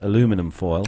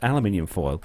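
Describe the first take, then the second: First: It is said the American way, aluminum. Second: It is said the British way, aluminium.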